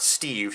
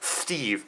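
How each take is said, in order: First: The s sound is clear and crisp. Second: The s sound is lisped like th. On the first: "not Steve" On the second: "He says Steve. It's like no, he has a lisp"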